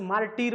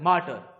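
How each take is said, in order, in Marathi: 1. शेवटच्या अक्षरात दीर्घ 'ee' स्वर आहे. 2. शेवटच्या अक्षरातील स्वर ह्रस्व आणि सौम्य आहे. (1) "मार्टीर असं मार्टीर वगैरे काही नसतं" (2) "प्रोनाउन्सिएशन करताना मार्टर असंच करायचं"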